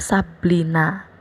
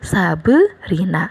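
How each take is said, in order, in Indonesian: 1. Konsonan sebelum akhiran itu berbunyi L. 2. Ada vokal tambahan sebelum bunyi R. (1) "bukannya tadinya Sabrina malah jadinya Sablina" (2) "harus dijadiin suku kata baru dan dipakaikan e"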